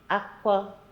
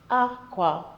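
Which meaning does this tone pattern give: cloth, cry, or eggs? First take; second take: cry; cloth. First: It is said with the tone pattern for cry. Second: It is said with the tone pattern for cloth. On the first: The word means cry. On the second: The word means cloth.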